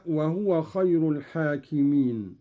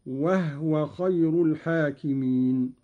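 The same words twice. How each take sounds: First: Said in the usual way. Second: وهو said wahwa, no vowel after the h; silent vowel on ha. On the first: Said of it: "قرأ قالون بإسكان الهاء". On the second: Shown as a demonstration. Sheikh demonstrating Qalun's lighter reading, وهو as wahwa. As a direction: close the first syllable of وهو on h, wah-wa. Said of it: "قرأ قالون بإسكان الهاء تخفيفا".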